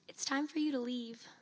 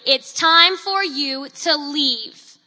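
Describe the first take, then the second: First: It is said very quietly, barely audible. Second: It is said much more loudly and firmly. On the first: The speaker lacks confidence and authority. "In a barely audible voice" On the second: The speaker means it and speaks with authority. "in a much louder voice"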